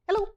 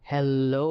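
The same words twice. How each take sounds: First: It is said very fast. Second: It is said in a monstrous voice.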